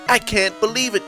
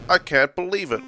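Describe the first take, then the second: First: It is said with lively, excited enthusiasm. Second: It is said flatly, without any enthusiasm. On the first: "I put on fake enthusiasm" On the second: "He wasn't even enthusiastic about it"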